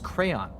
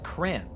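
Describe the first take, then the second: First: The word is said with two syllables. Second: The word is said with one syllable. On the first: This is how the speaker's friends say it. "no, it's crayon" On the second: This is how the speaker says it. "it's cran. I saved myself a syllable"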